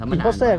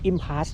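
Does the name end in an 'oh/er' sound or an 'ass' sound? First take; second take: oh/er; ass. First: The name ends with an 'oh' or 'er' sound. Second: The name ends with a short 'ass' sound. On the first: The speaker calls it wrong. "ผมอ่านว่า" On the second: The speaker calls it right. "เขาบอก"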